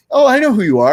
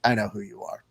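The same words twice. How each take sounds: First: High, loud delighted gasp of recognition; light up like a fan meeting a hero; eager fan greeting, much higher and louder; excited recognition. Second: Soft, deadpan and cold; bored, unimpressed mutter; flat unimpressed. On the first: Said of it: "So the two reactions are". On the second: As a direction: say it like you couldn't care less. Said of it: "The other reaction is me going like". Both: Retold or imitated.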